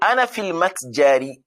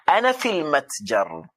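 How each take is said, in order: First: The last word ends with an added i vowel. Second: The last word ends on r without a vowel.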